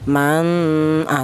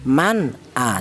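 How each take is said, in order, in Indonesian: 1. Bunyi n disengaukan dan kabur menyatu dengan vokal. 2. Bunyi n dibaca jelas dan tegas. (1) "Ikhfa itu artinya samar, seperti contoh man ah, tidak boleh ya" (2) "Yang benar dibaca idhar atau dibaca jelas"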